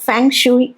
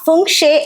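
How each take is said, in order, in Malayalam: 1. Spelling അനുസരിച്ച് 'feng shoo-ee' എന്നാണ് പറയുന്നത്. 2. രണ്ട് ചെറിയ അക്ഷരങ്ങളായി 'fung-shi' എന്നാണ് പറയുന്നത്. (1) "എഴുതുമ്പോ ഫെങ് ഷൂയി എന്നാണ് കാണുന്നത്" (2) "ഫുങ്ഷി എന്നാണോ ശരിക്കും പറയണേ"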